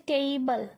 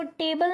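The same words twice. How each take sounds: First: टेबल said as tei-bal, e gliding into i; careful teacher's टेबल with an ee glide before bal; correct pronunciation demo. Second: टेबल with a plain single e vowel; flat e in टेबल, no diphthong; common mispronunciation. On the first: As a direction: open टेबल with a clear ei diphthong. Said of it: "इसको क्या बोलते हैं". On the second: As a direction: say टेबल quickly, no glide in the first syllable. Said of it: "इसको टेबल नहीं बोलते". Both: Shown as a demonstration.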